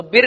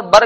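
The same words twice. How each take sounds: First: First بر said "birr", short i. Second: Second بر said "barr", short a. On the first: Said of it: "بر کا مطلب اور بر کا مطلب". (بر کو زیر سے "بِرّ" پڑھیں) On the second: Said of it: "بہت الگ ہوتا ہے". (بر کو زبر سے "بَرّ" پڑھیں) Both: Shown as a demonstration.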